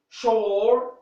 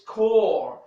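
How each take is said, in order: First: The word begins with a sh sound. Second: The word begins with a k sound. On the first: The speaker calls it wrong. "I'm not going to say" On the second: The speaker calls it right. "we say like this"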